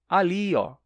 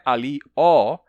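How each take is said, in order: First: The final ó is unstressed. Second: The final ó is stressed. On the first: The speaker calls it right. "mas é" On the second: The speaker calls it wrong. "O ó não é tônico, não é"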